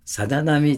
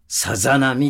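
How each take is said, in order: First: The word is said softly and gently. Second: Each sound is articulated crisply and strongly. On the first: It conveys the scene and feeling of small waves. The speaker calls it wrong. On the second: It could sound more like a big wave. The speaker calls it right.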